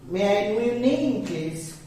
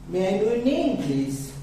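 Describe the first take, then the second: Both takes have the same delivery.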